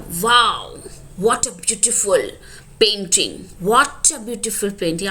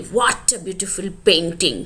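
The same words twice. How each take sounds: First: "what" stressed with a falling tune; emphatic exclamation. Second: Slow, "what" stressed, falling tune; emphatic exclamation. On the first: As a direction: stress "what" in "what a beautiful painting". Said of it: "आप यहाँ pressure दे रहे हो". ("what" पर ज़ोर देकर उतरते सुर में) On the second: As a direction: lean on "what" in "What a beautiful painting". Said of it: "उस पे ज़्यादा जोर दे रहे हो". ("What" पर ज़ोर, धीमे और उतरते सुर में) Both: Shown as a demonstration.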